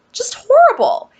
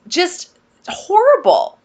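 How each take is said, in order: First: Just horrible breathed in a whisper; whispered, much higher and appalled; whispered dismay. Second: Horrible stretched slowly, said aloud; aloud, slow and pained; drawn-out dismay. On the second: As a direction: drag out just horrible in dismay. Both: Real, not acted. Dismay at the new room.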